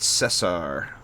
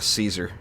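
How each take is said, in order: First: The name is said with a Spanish-style pronunciation. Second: The name is said with an American English pronunciation. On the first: "they pronounce it Cesar" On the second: "here in America, we usually pronounce it uh"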